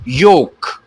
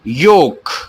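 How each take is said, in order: Both takes have the same delivery.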